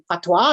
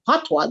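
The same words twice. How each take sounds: First: "Patwa?" asked back with a rising, unsure tune; puzzled question. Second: "Patwa." settled with a falling tune; matter-of-fact statement. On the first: Customers puzzled by the brand name, asking back with a rising tune. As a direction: say "Patwa" like you've never heard the word, pitch going up at the end. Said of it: "And people are like". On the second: Owner explaining her brand name to customers, falling and sure. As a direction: state "Patwa" plainly as the answer, pitch dropping at the end. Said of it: "I'm like". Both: Retold or imitated.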